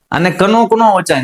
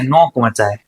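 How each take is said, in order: First: કનોક with the k sounded, marked wrong; wrong reading. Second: Said in the usual way. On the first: Shown as a demonstration. Teacher shows pupils the wrong reading.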